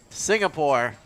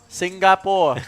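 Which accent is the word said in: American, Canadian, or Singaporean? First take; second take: American; Singaporean. First: The word is said in an American accent. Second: The word is said in a Singaporean accent.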